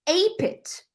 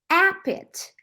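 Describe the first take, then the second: First: The first vowel is a diphthong. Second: The first vowel is a plain short vowel. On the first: The speaker calls it wrong. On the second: The speaker calls it right.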